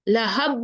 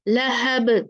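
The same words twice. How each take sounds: First: The final b stops flat with no bounce. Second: The final b ends with a short echoing bounce. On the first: The speaker calls it wrong. "लहब नहीं बोलेंगे।" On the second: The speaker calls it right. "हमने कलकला करके इसको पढ़ना है।"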